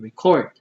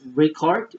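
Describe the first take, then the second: First: The stress is on the second syllable. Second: The stress is on the first syllable. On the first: It names an action. "or to record" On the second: It names a thing. "which is like an album"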